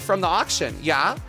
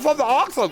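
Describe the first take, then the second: First: It is said in a clear, normal voice. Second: It is said muffled, as if mouth full.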